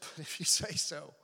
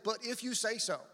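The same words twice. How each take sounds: First: It is said sarcastically, with doubt. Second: It is said sincerely, with trust.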